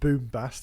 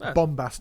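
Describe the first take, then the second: First: The first syllable sounds like 'boom'. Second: The first syllable sounds like 'bomb'. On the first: The speaker calls it wrong. "not boombast" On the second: The speaker calls it right.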